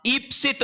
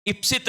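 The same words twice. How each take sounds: First: ईप्सित with a long first ई; ईप्सित marked as the right form; long ई stressed. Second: Said in the usual way. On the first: Shown as a demonstration. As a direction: stretch the ई in ईप्सित. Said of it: "होता है". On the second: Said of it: "नहीं होता".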